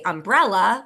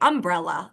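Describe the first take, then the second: First: The stress is on the second syllable. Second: The stress is on the first syllable. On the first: "I say umbrella, like from when I was a kid" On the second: "accent on that first syllable"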